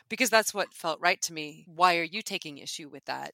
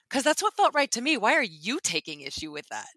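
First: It is said in a calm, unemotional tone. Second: It is said in a heated, emotional tone. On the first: "if you say it in an unemotional way"

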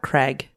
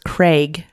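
First: The vowel sounds like a short 'e'. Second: The vowel is a long 'ay' sound. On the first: The speaker calls it wrong. "not Craig. Not Craig with like a, sounds like an E" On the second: The speaker calls it right. "It's Craig, You like emphasize the A"

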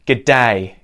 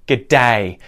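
The two takes are said the same way.

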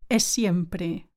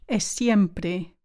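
Both takes have the same delivery.

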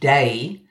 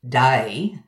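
First: The vowel glides from one sound to another. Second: The vowel glides widely in a broad Australian way. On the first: "No diphthong here changing from one thing to another, like my own day" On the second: "or a broader Aussie day"

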